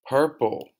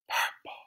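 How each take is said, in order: First: It is said in a normal voice. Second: It is said in a whisper.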